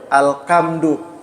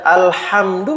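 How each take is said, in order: First: The middle consonant is a k sound. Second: The middle consonant is an h sound.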